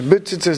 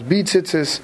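First: The vowel after the b is a short shva. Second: The vowel after the b is a full vowel. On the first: The speaker calls it right. "make sure to say b'tzitzis ... with a shvat" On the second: The speaker calls it wrong. "not b'tzitzis"

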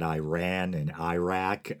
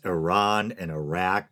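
First: The names begin with an 'eye' sound. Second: The names begin with an 'ih' sound. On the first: The speaker calls it wrong. "not Iran and Iraq" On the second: The speaker calls it right. "It's Iran and Iraq"

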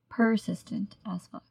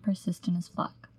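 First: Each word is clearly and deliberately enunciated. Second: The words are run together casually.

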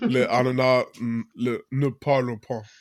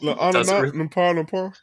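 First: The words are separate and it ends in 'pas'. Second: The phrase runs together and ends in 'lampan'. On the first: The speaker calls it right. "we decided to Google it after many years, and it's pineapples don't speak" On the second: The speaker calls it wrong. "I wasn't saying it right"

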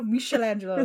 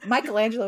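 First: The name has the original Italian pronunciation. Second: The name has the everyday English pronunciation. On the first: It refers to the Renaissance artist. "Michelangelo is an artist" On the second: It refers to the cartoon turtle. "Michelangelo is a Ninja Turtle"

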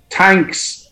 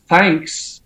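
First: The word begins with a plain t sound. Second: The word begins with a th sound. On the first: "I don't pronounce my THs" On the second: "If I start to pronounce my THs"

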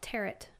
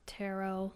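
First: The word is said with a non-French pronunciation. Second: The word is said with a French pronunciation. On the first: "most they would call it tarot" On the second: "like a French pronunciation"

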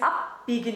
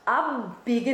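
First: The middle b sound is fully stopped before continuing. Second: The middle b sound is released without a full stop. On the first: The speaker calls it right. "You have to actually literally stop the sound" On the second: The speaker calls it wrong. "It's not abbiegen"

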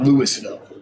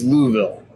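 First: The name is said the way outsiders say it. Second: The name is said the way Kentucky locals say it. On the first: The speaker calls it wrong. "It's not Louisville" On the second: The speaker calls it right. "when you're in Kentucky, it's Louisville"

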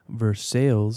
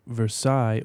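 First: It is said the local Kentucky way. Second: It is said the standard, non-Kentucky way.

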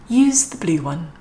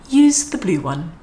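The two takes are said the same way.

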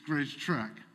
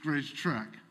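First: The second word has the vowel of 'trek'. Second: The same.

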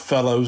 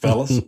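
First: The word ends with an oh vowel. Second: The word ends with an uh vowel. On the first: "We are not fellows ourselves" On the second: "We're just fellas"

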